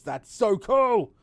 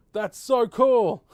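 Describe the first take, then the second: First: Excited. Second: Louder, drawn-out delight; excited, louder. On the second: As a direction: really savor it, slow and loud. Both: Real, not acted. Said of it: "repeats delight".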